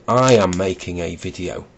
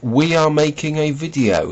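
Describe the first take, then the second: First: "I am making a video" with "I" leaned on; stress on I. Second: "We ARE making a video", leaning on "are"; royal we. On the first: Shown as a demonstration. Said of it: "he should be saying". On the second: Retold or imitated. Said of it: "he says".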